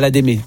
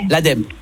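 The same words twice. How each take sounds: First: It is pronounced like the word edamame. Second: It is not pronounced like the word edamame. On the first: The speaker calls it wrong. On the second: The speaker calls it right.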